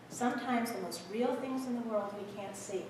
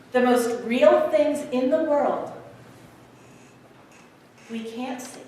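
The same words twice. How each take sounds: First: Very soft, gentle repeat; hushed. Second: Said in the usual way. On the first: Acted. Conductor sharing wisdom with the boy, hushed. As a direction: drop right down to a near-silent, sincere hush.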